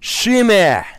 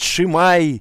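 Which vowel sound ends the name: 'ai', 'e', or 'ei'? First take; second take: e; ai. First: The name ends in a plain 'e' sound. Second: The name ends in an 'ai' sound. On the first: The speaker calls it right. "это Шиме" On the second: The speaker calls it wrong. "кто-то его называет Шимай"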